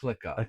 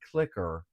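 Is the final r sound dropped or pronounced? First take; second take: dropped; pronounced. First: The final r sound is dropped. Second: The final r sound is pronounced. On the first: "pronouncing clicker as clicka" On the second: "grandma had been pronouncing clicker as"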